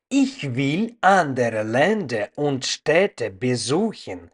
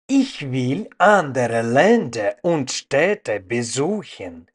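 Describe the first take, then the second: No difference in how they are said.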